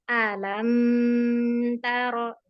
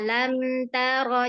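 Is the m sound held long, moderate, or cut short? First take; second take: moderate; short. First: The m sound is held moderately, flowing on. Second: The m sound is cut off abruptly. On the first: The speaker calls it right. "Itu jadi nanti mengalir" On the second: The speaker calls it wrong. "jangan kayak orang kaget"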